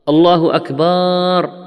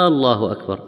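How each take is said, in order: First: The vowel in the last word is drawn out. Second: The opening vowel of the first word is drawn out. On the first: The last word becomes the plural of drum. "أكبر جمع كبر وهو الطبل" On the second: It becomes a question whether God is greatest. "هذه همزة استفهام"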